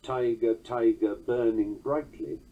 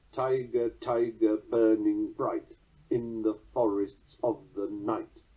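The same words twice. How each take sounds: First: Tiger, tiger, burning brightly with a weak fading end; mock full trochee, slightly fatuous; full trochaic line. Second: Slow, Tiger, tiger hit on TI; slow strong-weak recital; trochaic catalectic. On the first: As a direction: let brightly trail off weakly. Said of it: "The full trochaic line". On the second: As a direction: end strong on night. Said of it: "drop the natural weak ending". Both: Shown as a demonstration.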